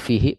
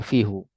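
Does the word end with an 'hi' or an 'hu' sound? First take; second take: hi; hu. First: The word ends with an 'hi' sound. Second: The word ends with an 'hu' sound. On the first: The speaker calls it right. "Jadi fihi bukan dibaca fihu" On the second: The speaker calls it wrong. "bukan dibaca fihu"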